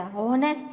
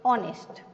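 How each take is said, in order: First: "હોનેસ્ટ" begun with a clear H; wrongly sounded H. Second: "ઓનેસ્ટ" begun directly on the vowel; silent H. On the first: Teacher recalling everyone's mistake, "હોનેસ્ટ" with H sounded. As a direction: put an H on the front of "હોનેસ્ટ". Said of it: "હોનેસ્ટ નહીં". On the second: Teacher answering what comes instead, "ઓનેસ્ટ" with silent H. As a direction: leave the H out of "ઓનેસ્ટ". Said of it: "શું આવે?". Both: Shown as a demonstration.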